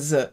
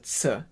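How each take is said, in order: First: It is a buzzing z sound. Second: It is a ts sound. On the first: The speaker calls it wrong. "It's not a Z" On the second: The speaker calls it right. "it's a Z. Like a T S"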